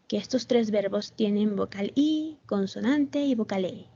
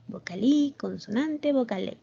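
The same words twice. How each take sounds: First: Said in the usual way. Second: "Vocal I", "consonante", "vocal E" as three separate chunks with pauses between them; pattern spelled out. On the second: Shown as a demonstration. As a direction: lay out "Vocal I", "consonante", "vocal E" one by one for the class. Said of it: "¿Ven?".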